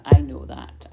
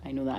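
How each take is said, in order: First: Emphatic. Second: Said in the usual way. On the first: Real, not acted. Acknowledging viewers' appreciation.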